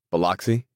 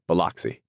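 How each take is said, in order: First: "Biloxi?" rising at the end; rising, puzzled "Biloxi?"; questioning. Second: "Biloxi" clipped with a falling close; curt, final "Biloxi"; one flat falling word: "Biloxi"; short answer. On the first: Tom echoing question. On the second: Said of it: "he answered shortly". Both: A narrator's reading.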